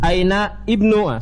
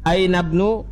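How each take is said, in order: First: The i vowel of ibnu is pronounced separately. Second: The i vowel is dropped and words join. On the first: The speaker calls it wrong. "jangan antum baca aina ibnu, salah" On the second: The speaker calls it right. "Aina bnu al mudir, ini hamzah wasolnya"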